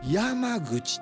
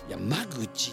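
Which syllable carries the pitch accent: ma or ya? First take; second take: ya; ma. First: The pitch accent falls on the syllable ya. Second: The pitch accent falls on the syllable ma. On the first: "やの方にアクセントを置く" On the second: "まの方にアクセントを置く"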